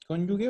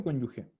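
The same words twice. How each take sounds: First: Cónyuge said with a hard g, as in "gue"; cónyuge ending in a hard "gue". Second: Cónyuge said with a raspy Spanish jota for the g; cónyuge with g as in "gente"; Spanish j sound. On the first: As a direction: say cónyuge with g as in "guerra". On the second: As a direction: say cónyuge ending in "je". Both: Shown as a demonstration. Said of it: "¿Cónyuge o cónyuge?".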